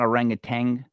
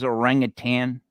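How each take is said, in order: First: The word ends with a g sound. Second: The word ends with a plain n sound. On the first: The speaker calls it wrong. "not orangutan. Like there's no G on the end of that word" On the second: The speaker calls it right. "it was orangutan"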